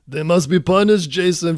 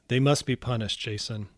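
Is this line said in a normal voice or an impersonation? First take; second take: impersonation; normal. First: It is said in a put-on Austrian-accented voice. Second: It is said in the speaker's ordinary voice.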